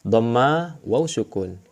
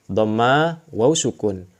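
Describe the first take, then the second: Both takes have the same delivery.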